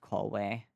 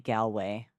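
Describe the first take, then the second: First: It sounds like 'call away'. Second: It does not sound like 'call away'. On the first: The speaker calls it wrong. "not Galway" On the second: The speaker calls it right. "it's supposed to be Galway"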